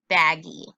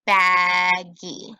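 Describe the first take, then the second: First: Said in the usual way. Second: Baggy loud, clapped as two beats; syllable beats. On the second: Shown as a demonstration. Teacher checking syllables for the class, beat by beat. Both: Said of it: "let's try that syllable rule".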